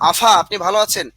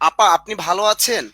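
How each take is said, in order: First: The first word has an f sound. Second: The first word has a p sound. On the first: This is the regional form. "আর বলে আফা" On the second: This is the standard form. "আপা ভালো আছেননি আমরা বলি"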